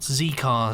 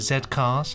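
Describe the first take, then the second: First: The letter is said as 'zee'. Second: The letter is said as 'zed'. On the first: The speaker calls it wrong. "not not Z Cars" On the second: The speaker calls it right. "We don't say Zed"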